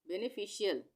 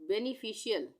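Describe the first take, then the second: No difference in how they are said.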